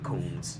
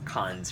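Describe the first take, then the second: First: The vowel is long, as in 'cones'. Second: The vowel is short, as in 'con'. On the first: The speaker calls it wrong. "your pronunciation of cons sounded like cones" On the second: The speaker calls it right. "Cons rather than cones"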